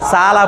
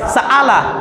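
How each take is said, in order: First: A softened catch falls between the two vowels. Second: A full glottal catch splits the two vowels. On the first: The speaker calls it right. "দুইটার মাঝামাঝি উচ্চারণ হয়েছে। এটাকে বলা হয় বাইন বাইন" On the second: The speaker calls it wrong. "যদি অ্যাপ্রোপ্রিয়েট হামজার উচ্চারণ করি তাহলে এটা উচ্চারণ হবে সাআলা"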